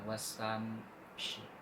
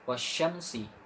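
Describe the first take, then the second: First: The sh sound comes near the end. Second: The sh sound comes near the start. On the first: The speaker calls it wrong. "Jangan wasam shi" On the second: The speaker calls it right. "nggak boleh kebalik ya"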